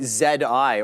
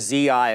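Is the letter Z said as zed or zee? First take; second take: zed; zee. First: The letter Z is said as zed. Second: The letter Z is said as zee.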